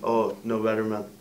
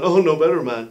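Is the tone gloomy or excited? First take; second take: gloomy; excited. First: It is said in a gloomy, worried tone. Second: It is said in an excited, happy tone.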